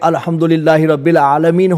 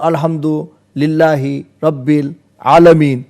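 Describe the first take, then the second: First: The phrase is said in one continuous run. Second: The words are separated by pauses. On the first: The full verse is recited as a whole. The speaker calls it wrong. "આખું ના બોલાય" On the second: The words are recited separately, not as a full verse. The speaker calls it right. "એના જે વર્ડ છે એને છૂટા પાડીને બોલવાનું"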